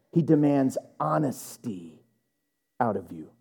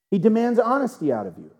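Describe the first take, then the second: First: Low and soft, with a pause before "out of you". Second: Said in the usual way. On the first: Real, not acted. Preacher telling church what God demands, grave and measured. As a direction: let "honesty" sink, pause, then drop "out of you" very low. Same line said twice, first weighty.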